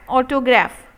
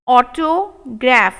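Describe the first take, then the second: First: Said in the usual way. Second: Autograph slowed right down; slow model take. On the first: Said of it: "normal repeat". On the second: Shown as a demonstration. Teacher modelling autograph slowly for students. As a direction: sound it out slowly. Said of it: "slow model take".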